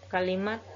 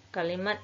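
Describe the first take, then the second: No difference in how they are said.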